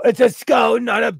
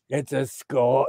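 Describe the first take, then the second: First: It's a skull said higher and louder, for emphasis; insistent repeat of It's a skull. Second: Said in the usual way. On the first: Shown as a demonstration. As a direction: push It's a skull up in pitch and volume.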